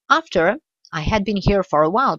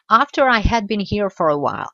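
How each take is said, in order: First: There is a pause after the first word. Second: It flows on with no pause after the first word. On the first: The speaker calls it wrong. "On ne dira pas" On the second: The speaker calls it right. "je ne fais pas une pause après after"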